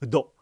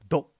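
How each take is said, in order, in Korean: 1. 음절 앞에 짧은 모음이 옵니다. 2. 음절은 앞에 모음 없이 바로 시작합니다. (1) "그 앞에 을을 넣어 발음 한번 해봅니다" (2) "을을 뺄까요?"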